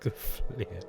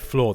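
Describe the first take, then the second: First: It has a broad Scottish 'ee' vowel sound. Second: It has a standard 'or' vowel sound. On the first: "they say fleer" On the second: "they don't say floor"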